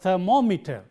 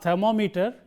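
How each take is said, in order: First: The stress is on the second syllable. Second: The stress is not on the second syllable. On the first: The speaker calls it right. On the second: The speaker calls it wrong.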